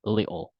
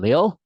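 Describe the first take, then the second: First: Little broken into "li-ol"; British little, two beats without T; British-style little. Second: Little run together as "lil"; American-style little, T dropped; one smooth T-less little; American little without T. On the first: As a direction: split little where the T drops. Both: Shown as a demonstration.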